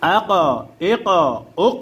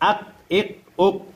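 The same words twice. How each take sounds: First: The final consonant bounces with an echoing sound. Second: The final consonant stops flat without any echo. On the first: The speaker calls it right. "কলকলা করিয়া পড়তে হয়, অর্থাৎ প্রতিধ্বনি আওয়াজ দিয়ে পড়তে হয়" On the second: The speaker calls it wrong. "তাহলে আপনার পড়া কখনো কি হবে না, শুদ্ধ হবে না"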